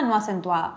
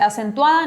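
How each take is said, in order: First: "no acentuada" dropped lower and softer; unstressed. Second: "acentuada" with a firm lift at the end; stressed. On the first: Teacher demonstrating an unaccented syllable, unstressed. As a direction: let "no acentuada" fall away quietly. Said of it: "en la otra no acentúo". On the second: Teacher demonstrating an accented syllable, stressed. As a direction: punch "acentuada" and let it rise. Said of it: "En una sílaba acentúo". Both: Shown as a demonstration.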